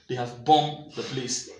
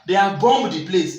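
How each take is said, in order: First: No b sound follows the m. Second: A b sound follows the m. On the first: The speaker calls it right. "The B here is silent" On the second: The speaker calls it wrong. "like I say"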